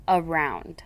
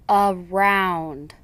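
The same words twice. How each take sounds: First: Said in the usual way. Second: Around slowly split into two syllables. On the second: Shown as a demonstration. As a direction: break Around apart. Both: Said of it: "examples of how the ... should be read".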